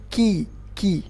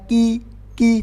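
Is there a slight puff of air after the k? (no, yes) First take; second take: yes; no. First: The k is released with a slight puff of air. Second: The k is released without any puff of air. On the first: The speaker calls it right. "tapi ki ki, ada angin sedikit saja yang keluar" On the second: The speaker calls it wrong. "bukan ki ki"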